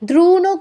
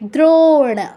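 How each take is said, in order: First: The vowel after dr is a u. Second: The vowel after dr is a long o. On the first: The speaker calls it wrong. "দ্রুণও কেউ বলবো না" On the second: The speaker calls it right. "ওকে ওকে ওই বলতে হবে"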